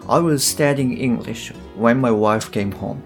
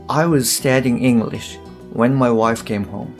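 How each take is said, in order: No difference in how they are said.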